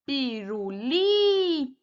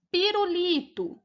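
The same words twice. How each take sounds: First: "pirulito" very slowly, with LI stretched long and loud; drawn-out stressed syllable. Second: Said in the usual way. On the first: Shown as a demonstration. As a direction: hold and swell the LI in "pirulito". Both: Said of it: "A penúltima sílaba é a sílaba tônica".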